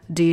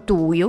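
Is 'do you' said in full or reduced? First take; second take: reduced; full. First: The words are squeezed into a short reduced sound. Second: Both words are said fully and separately. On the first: The speaker calls it right. "你要d d d" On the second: The speaker calls it wrong. "你不能说do you"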